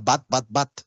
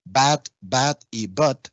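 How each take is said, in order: First: BAT, BAT, BAT all with one open 'a'; three identical BATs, Spanish-like 'a'; no difference between the three BATs; Creole merged vowels. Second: BAT, BAT, BUTT with English vowels; slow, separated English BAT, BAT, BUTT. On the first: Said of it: "en criollo limonense se reducen". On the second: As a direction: keep BUTT's vowel distinct from BAT. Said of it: "que en inglés sería". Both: Shown as a demonstration.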